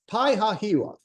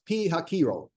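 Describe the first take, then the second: First: The name is read the way it looks in English. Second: The name is said in its original pronunciation. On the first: "I'm just going to say it the way it looks in English" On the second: "It's actually pronounced"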